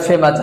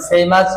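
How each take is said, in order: First: ফেমাস with pure e, no glide; short first vowel in ফেমাস; usual mispronunciation. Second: ফেমাস with an ei glide first; e sliding to i in ফেমাস; correct pronunciation. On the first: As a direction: say ফেমাস as feh-mas. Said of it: "আসলে সঠিক উচ্চারণ ফেমাস". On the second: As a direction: say ফেমাস as fay-mas. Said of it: "আসলে সঠিক উচ্চারণ". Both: Shown as a demonstration.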